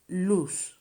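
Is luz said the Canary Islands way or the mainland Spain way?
Canary Islands. The final z sounds like an s. "we don't pronounce la letra Z like that, but like an S"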